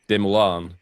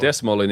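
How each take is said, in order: First: Some letters of the name are left silent. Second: Every letter of the name is sounded out. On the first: The speaker calls it right. "I guess I just have that pronunciation wrong as well now" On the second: The speaker calls it wrong. "that's exactly how you pronounce it if you're a Finnish guy"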